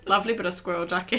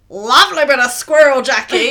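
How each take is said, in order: First: It is said in a flat, underplayed way. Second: It is said with big exaggerated energy.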